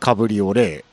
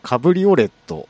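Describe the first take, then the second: First: The word ends without a final T sound. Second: The word ends with a pronounced T sound. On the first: This is the French form of the word. "フランスではカブリオレ" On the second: This is the German form of the word. "ドイツではカブリオレット"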